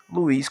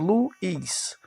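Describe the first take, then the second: First: Said in the usual way. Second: "Luiz" split into lu and iz; short break before the "iz" of "Luiz"; syllable by syllable. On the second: Shown as a demonstration. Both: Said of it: "porque não está sozinho".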